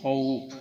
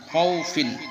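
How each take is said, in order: First: The word stops short with no ending. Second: The word ends with an added -in sound. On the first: "এখানে ওয়াকফ করার কারণে আমরা পড়ব কি মিন খৌফ"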